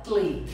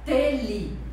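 First: The vowel between t and l is dropped. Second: A full vowel is pronounced between t and l. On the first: The speaker calls it right. "você fala tle" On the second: The speaker calls it wrong. "você não fala tele"

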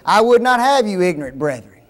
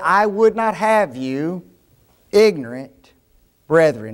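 First: It runs straight on into "brethren." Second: There is a pause before "brethren."

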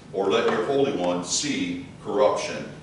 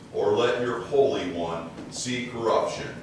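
The two takes are said the same way.

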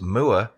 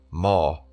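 First: The vowel sounds like 'moo' with an R added. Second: The vowel does not sound like 'moo'. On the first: The speaker calls it wrong. "the way I pronounce moor may be considered as wrong" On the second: The speaker calls it right. "the correct pronunciation being moor"

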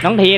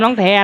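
First: The name has a closer 'e' vowel. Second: The name has an open 'ae' vowel. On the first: The speaker calls it right. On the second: The speaker calls it wrong.

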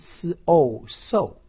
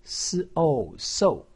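First: The pitch falls sharply from high to low. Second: The pitch falls sharply from high to low.

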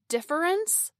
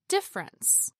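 First: The word is said with three syllables, keeping every vowel. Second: The word is said with two syllables, dropping an unstressed vowel. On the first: "and difference becomes" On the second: "becomes difference"

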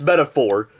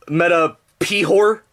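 First: The middle sound is a plain f sound. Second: The middle sound is a p followed by h.

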